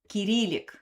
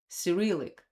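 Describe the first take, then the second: First: It is said the Russian way. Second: It is said the English way. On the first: "in Russia we say Kyrillic" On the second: "in English we call it Cyrillic"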